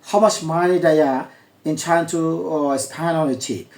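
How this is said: A native accent reduces "do you" to "diya". "বিদেশি অ্যাকসেন্টটাও আপনাদেরকে শোনাচ্ছি"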